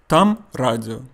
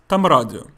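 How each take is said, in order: First: The phrase is said at a normal pace. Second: The phrase is said quickly, run together.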